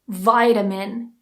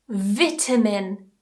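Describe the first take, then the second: First: It is spoken in an American English accent. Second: It is spoken in a British English accent.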